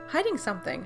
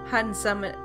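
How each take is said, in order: First: The last word is said as standard 'something'. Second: The last word is said as a dialect 'summit'. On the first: "I'm going back to summit" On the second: "How do you pronounce that? Summit?"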